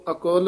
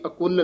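First: ਅਕੁਲ with open o and single soft l; soft, loose. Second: ਅਕੁਲ with short u and pressed l; tight misreading. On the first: Teacher modelling for a pupil, ਅਕੁਲ soft, with o sound. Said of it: "ਪੋਲਾ ਹੀ". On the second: Teacher showing what not to say, ਅਕੁਲ tight with short u. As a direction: clip the u in ਅਕੁਲ onto a firm l. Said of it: "ਅਕੁਲ ਨਹੀਂ ਕਹਿਣਾ ਹੈ". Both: Shown as a demonstration.

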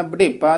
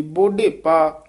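First: ਬੁਢੇਪਾ quick, as "bəḍepā"; reduced first vowel. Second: ਬੁਢੇਪਾ with a clear "o", boḍhepā; full first vowel. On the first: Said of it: "ਬੁਢੇਪਾ ਨਹੀਂ ਕਹਿ ਦੇਣਾ". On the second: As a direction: round out the first syllable of ਬੁਢੇਪਾ. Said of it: "ਉਚਾਰਨ ਕਰਨਾ". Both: Shown as a demonstration.

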